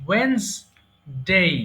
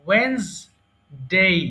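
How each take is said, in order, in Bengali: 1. মাঝের 'd' বাদ যায়, ফলে দুটি দল থাকে। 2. মাঝের 'd' বাদ যায়, ফলে দুটি দল থাকে।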